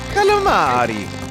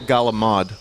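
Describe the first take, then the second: First: It is said in a standard American pronunciation. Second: It is said in an Italian American New York accent.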